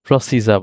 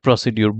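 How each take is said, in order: First: The word ends with a blended 'jer' sound. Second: The word ends with a separate 'dyoor' sound. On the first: The speaker calls it right. "আমি কিন্তু খুব সহজে এখন এটাকে প্রসিজা বলব।" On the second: The speaker calls it wrong. "আমি কিন্তু চাইলেও আর এটাকে প্রসিডিউর বলব না।"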